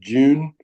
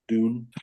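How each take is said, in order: First: It is said in an Australian accent. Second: It is said in the speaker's ordinary accent.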